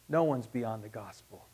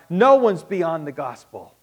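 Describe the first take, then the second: First: Quiet, lower repeat of the line; hushed, intimate restatement; soft echo. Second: Firm, loud proclamation; ringing pulpit declaration. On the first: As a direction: let it sink in gently. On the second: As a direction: hit it hard to the room. Loud statement then soft repeat. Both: Real, not acted.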